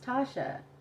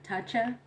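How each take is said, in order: First: The middle consonant is an 'sh' sound. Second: The middle consonant is a 'ch' sound. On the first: It is the name's real pronunciation. The speaker calls it right. "It's pronounced Tasha" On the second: It is read from the spelling as English. The speaker calls it wrong. "when they would try to pronounce it in English, they would be like"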